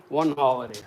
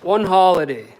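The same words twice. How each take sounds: First: Said in the usual way. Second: Barked out loud, punching ONE; angry shout. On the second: Real, not acted. Scolding his family, a loud "One holiday".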